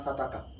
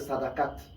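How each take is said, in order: First: The word ends on a vowel, no t. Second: The word ends with a final t sound. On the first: The speaker calls it wrong. "que vous prononcez mal en disant sadaka" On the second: The speaker calls it right. "Ce que vous connaissez mieux sous le nom de sadakat"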